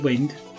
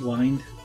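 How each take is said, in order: First: The vowel is short, as in windy. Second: The vowel is long, rhyming with find. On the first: The speaker calls it right. "It's actually wind" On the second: The speaker calls it wrong. "some people might pronounce it wind"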